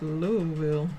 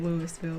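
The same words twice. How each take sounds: First: It is pronounced the way locals say it. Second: It is pronounced the way outsiders say it. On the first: The speaker is from the area. The speaker calls it right. "this is Louisville" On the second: The speaker is not from the area. The speaker calls it wrong. "This ain't Louisville"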